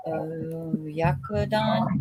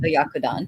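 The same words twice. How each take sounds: First: Oyakodon said very slowly, syllable by syllable: o-ya-ko-don; sounded out slowly. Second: Said in the usual way. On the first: Shown as a demonstration. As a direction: stretch out oyakodon slowly and carefully.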